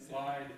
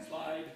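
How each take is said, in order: Both takes have the same delivery.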